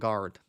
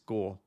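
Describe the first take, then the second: First: The last syllable sounds like 'gard'. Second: The last syllable sounds like 'gore'. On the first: The speaker calls it wrong. "so not guard" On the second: The speaker calls it right. "It's Gore"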